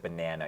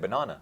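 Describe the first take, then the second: First: It is said in an American accent. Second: It is said in a South African accent. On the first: The speaker is adapting to American listeners. "I do try to change my accent and I say banana instead" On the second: The speaker is talking with people from home. "Then I say banana"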